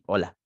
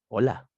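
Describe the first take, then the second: First: It sounds annoyed and bitter. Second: It sounds warm and flirtatious.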